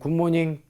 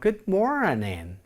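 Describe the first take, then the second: First: It is said evenly, without strong and weak beats. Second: It is said with clear strong and weak beats. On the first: The speaker calls it wrong. "우리나라 사람들 같은 경우에는 아침 인사 한번 해보세요 라고 그러면 굿모닝 이렇게 하지만" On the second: The speaker calls it right. "Good morning 이렇게 하죠. 즉 다시 말해서 영어는 ups and downs가 굉장히 있는 언어인데"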